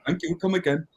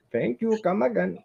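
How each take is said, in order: First: Higher shopkeeper catchphrase voice; a light Apu impression. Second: High, laughing Apu impression; chirpy shopkeeper catchphrase voice. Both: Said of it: "sounding like a poo from The Simpsons".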